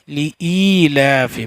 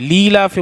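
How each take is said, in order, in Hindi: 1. शुरुआती स्वर अलग-अलग अक्षरों की तरह बोले जाते हैं। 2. शुरुआती स्वर मिलकर एक अक्षर बनते हैं। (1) "सही तरीका यही है" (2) "ली लाफी बोलेंगे तो गलत हो जाएगा"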